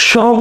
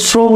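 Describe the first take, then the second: First: First শ্রম as "shrom", with sh; wrong sh sound. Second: শ্রম as "srom", with dental s; correct s sound. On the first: Teacher offering the wrong choice, শ্রম said with sh. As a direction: start শ্রম on a drawn sh. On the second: Teacher offering the right choice, শ্রম said with s. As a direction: start শ্রম on s, not sh. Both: Shown as a demonstration. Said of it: "যখন আমরা উচ্চারণ করি".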